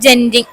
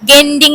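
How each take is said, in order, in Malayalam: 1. ഈ വാക്ക് j ശബ്ദത്തിലാണ് തുടങ്ങുന്നത്. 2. ഈ വാക്ക് hard g ശബ്ദത്തിലാണ് തുടങ്ങുന്നത്.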